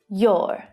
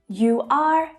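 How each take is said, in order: First: It is said as one contracted syllable. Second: It is said as two full separate words.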